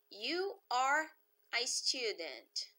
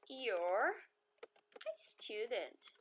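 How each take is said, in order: First: The words 'you are' are said in full. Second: The words 'you are' are contracted to one syllable.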